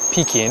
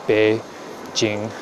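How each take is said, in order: First: It starts with P and ends in king. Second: It starts with B and ends in jing. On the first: This is the old English reading of the name. The speaker calls it wrong. "in English we just read it as Peking" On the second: This is how the name should be pronounced. The speaker calls it right. "the way it should be pronounced"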